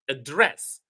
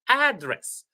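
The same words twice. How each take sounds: First: The stress is on the second syllable. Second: The stress is on the first syllable. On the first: It is used as a verb. "When it is a verb, it's the second syllable, res, that is high, loud" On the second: It is used as a noun. "as a noun, I should emphasize or I should stress the first syllable"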